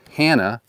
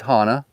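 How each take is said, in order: First: "Hana" with a flat tourist a as in hand; "Hana" with a short nasal a; mispronunciation. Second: "Hana" with an open ah, HAH-nah; "Hana" with open, even vowels; correct pronunciation. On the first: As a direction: say "Hana" the mainland way, HAN-uh. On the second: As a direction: say "Hana" like a local, both a's as in father. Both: Shown as a demonstration. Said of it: "it's Hana".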